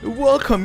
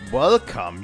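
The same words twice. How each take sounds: First: It is said in a put-on character voice. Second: It is said in the speaker's natural voice.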